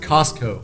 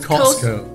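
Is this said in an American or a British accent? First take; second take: American; British. First: It is said in an American accent. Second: It is said in a British accent. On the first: "美国是Costco" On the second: "英国是Costco"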